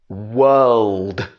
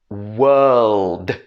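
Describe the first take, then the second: No difference in how they are said.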